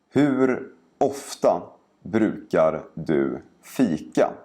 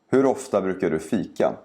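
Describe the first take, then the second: First: The sentence is spoken slowly and carefully. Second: The sentence is spoken quickly and naturally. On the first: "first say each sentence slowly" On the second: "and then faster, like a native speaker would"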